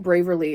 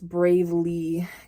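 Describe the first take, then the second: First: An extra r sound comes before the ending. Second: No extra r sound comes before the ending. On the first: The speaker calls it wrong. "I would say Braverly" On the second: The speaker calls it right. "It's Bravely. Kindred Bravely is how you pronounce it"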